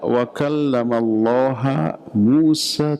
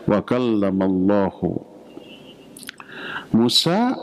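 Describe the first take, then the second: First: The word Allah ends in an a vowel. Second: The word Allah ends in a u vowel. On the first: Moses spoke to God. The speaker calls it wrong. "Allahnya dibaca ha, jadi objek" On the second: God spoke to Moses. The speaker calls it right. "tanda rafa'nya dengan dhammah"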